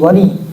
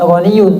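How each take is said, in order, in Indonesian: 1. Kata ini terpotong setelah bunyi ni. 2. Kata ini berakhir dengan akhiran -yun yang penuh. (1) "tapi wani" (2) "bukan waniyun"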